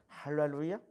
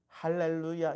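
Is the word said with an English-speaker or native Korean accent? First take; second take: English-speaker; native Korean. First: It is said with an English-speaker's foreign accent. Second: It is said with a plain native Korean accent. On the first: "영어를 쓰던 사람들이 한국어로 하면 이런 이 발음" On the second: "할렐루야 이렇게 안 해요"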